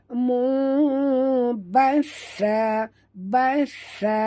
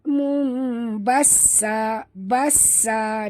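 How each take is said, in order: First: The consonant is a soft th sound. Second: The consonant is a hissing s sound. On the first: The speaker calls it right. "jaga makhraj sa" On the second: The speaker calls it wrong. "Dengar bunyi sofir sin kan? Itu tak betul"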